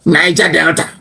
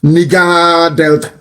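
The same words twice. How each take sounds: First: "Niger Delta" with NYE-ja; "Niger" said NYE-ja, then Delta; Niger pronounced. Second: "Nigger Delta" with a short i, slow; mocking mispronunciation. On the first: "Niger Delta" said properly before mocking it. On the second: Sneering short-i "Nigger Delta" at the elder. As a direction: drag out "Nigger" with a short i, NIG-a. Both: Shown as a demonstration.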